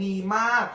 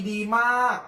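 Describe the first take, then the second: No difference in how they are said.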